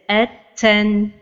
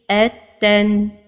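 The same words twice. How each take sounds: First: The t is released with a breathy puff. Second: The t and ending flow together smoothly. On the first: The speaker calls it wrong. "Or to give hams like this" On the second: The speaker calls it right. "So the right pronunciation is"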